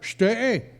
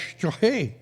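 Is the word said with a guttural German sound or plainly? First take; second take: plain; guttural. First: The word lacks the guttural German sound. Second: The word has a guttural German sound. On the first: The speaker calls it wrong. "I could never quite get it right" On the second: The speaker calls it right. "no, it's Steg"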